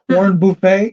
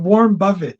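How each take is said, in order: First: The surname ends with a French-style 'ay' sound. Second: The surname ends with a plain English 'it' sound. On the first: The speaker calls it wrong. "How did Warren Buffett Buffett become French?" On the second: The speaker calls it right. "This ain't Phoebe"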